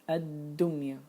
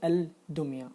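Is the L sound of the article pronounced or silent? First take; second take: silent; pronounced. First: The L is silent and the d is doubled. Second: The L is pronounced, with a pause after it. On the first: The speaker calls it right. "I'm not able to pronounce lam here" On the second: The speaker calls it wrong. "I cannot say الدمية. I cannot do this pause"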